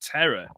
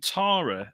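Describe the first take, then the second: First: The name is said with an American pronunciation. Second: The name is said with a British pronunciation. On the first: "always pronounced Terra over there" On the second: "the name Tara over here"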